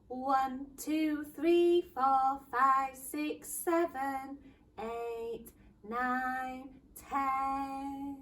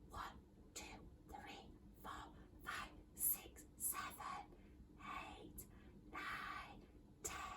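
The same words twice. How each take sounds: First: The counting is said at normal loudness. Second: The counting is said in a quiet voice.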